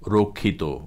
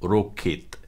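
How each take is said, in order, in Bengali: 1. শব্দটি ওকারের মতো স্বরধ্বনি দিয়ে শেষ হয়। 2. শব্দটি হসন্ত ব্যঞ্জনধ্বনি দিয়ে শেষ হয়। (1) "ও বা ওকারের মতো উচ্চারিত হবে" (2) "হসন্ত রূপে উচ্চারিত হবে"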